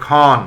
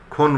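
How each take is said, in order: First: খন said as "khɔn"; open vowel. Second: খন said as "khon"; closed "o" in খন; rejected close o. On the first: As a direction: say খন with an open aw, "khawn". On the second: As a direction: say খন with a rounded o, "khone". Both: Shown as a demonstration. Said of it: "খন বলি না".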